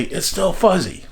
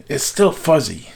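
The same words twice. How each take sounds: First: Higher-pitched mock call; retold yell. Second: Said in the usual way. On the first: Mother relays the answer up to father, mild mock yell. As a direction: imitate mother calling up to the roof. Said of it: "she would yell up to my father". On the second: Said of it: "I would say".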